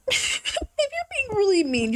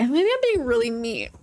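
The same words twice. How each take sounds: First: Laughing. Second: Said in the usual way. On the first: Shown as a demonstration.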